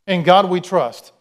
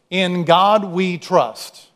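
First: "In God we trust" repeated a little louder, leaning on God. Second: "In God we trust" drawn out very slowly, each word held; slow, measured quote. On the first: Preacher repeating the motto back to the congregation, louder. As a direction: say it again and drive it home. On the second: Preacher quoting the coin motto to the congregation, very slowly. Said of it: "And the phrase is". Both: Shown as a demonstration.

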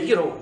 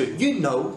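First: Scottish YOU KNOW, like yu-ro; Scottish accent. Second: Said in the usual way. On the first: Shown as a demonstration. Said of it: "ça devient you know". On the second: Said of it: "comme on te l'a appris".

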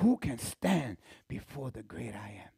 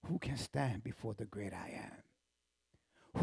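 First: Said in the usual way. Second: Hushed, whispered question; awed whisper. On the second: Acted. Preacher in awe of the great I am, whisper. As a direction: breathe it in awe.

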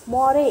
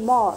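First: मोरे in two syllables, ending in "ay"; final E wrongly sounded. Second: मोर in one syllable, no vowel after the r; silent final E. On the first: Teacher showing the mistake, final e voiced in मोरे. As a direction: add a voiced e to the end of मोरे. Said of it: "मोरे ऐसे बोलते हैं?". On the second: Teacher correcting the class, मोर with silent e. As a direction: end मोर on the r sound, falling. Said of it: "नहीं, मोर". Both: Shown as a demonstration.

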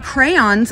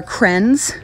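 First: Said in the usual way. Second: "crens" squeezed into one syllable; Utah pronunciation. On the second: Shown as a demonstration. Teaching the Utah word for crayons, "crens" in one syllable. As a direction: say "crens" to rhyme with pens. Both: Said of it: "crayons are crens".

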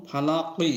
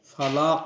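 First: ফালাকি with the ending vowel sounded after the q; full final vowel. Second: ফালাক cut off on the final q, no vowel; stopped ending. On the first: Teacher showing the unstopped form, ফালাকি with final i sounded. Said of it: "কবজার কি আছে". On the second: Teacher showing waqf to learners, ফালাক stopped on the q. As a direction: stop ফালাক on its last consonant. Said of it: "অক্ফ করার কারণে আমরা উচ্চারণ করব". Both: Shown as a demonstration.

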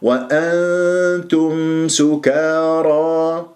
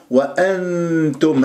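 First: وأنتم سكارى chanted very slowly, long hum before the ت; hidden nun. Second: وأنتم with the tongue landing on ن; mistaken clear nun. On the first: Teacher models the correct verse, drawn-out recitation. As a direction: hold the nasal hum in وأنتم. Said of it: "إخفاء". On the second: Teacher shows the mistake, nun not hidden. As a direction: pronounce a full n in وأنتم. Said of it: "وهذا خطأ". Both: Shown as a demonstration.

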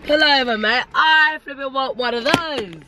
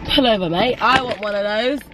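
First: Higher, slower mock bloke begging for ice cream; hammed-up passerby. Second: Lightly voiced bloke calling to pull over; a hint of a keen customer shouting at the van; mimicking an excited passerby. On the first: Vlogger hams up a passerby begging for a Mister Whippy, higher mock voice. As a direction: push it up into a pleading cartoon bloke. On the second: Vlogger mimics a passerby wanting ice cream, light mock call.

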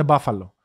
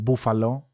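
First: "μπάφαλο" with an ah in the first syllable; proper pronunciation. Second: "μπούφαλο" with an oo in the first syllable; Greek-style pronunciation. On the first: Showing friends the English way, "μπάφαλο" with ah. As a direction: say "μπάφαλο" as BAH-falo. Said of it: "έτσι, κανονικά". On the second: Quoting what friends called the company, "μπούφαλο" with oo. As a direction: say "μπούφαλο" as BOO-falo. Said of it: "που λέγατε το". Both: Shown as a demonstration.

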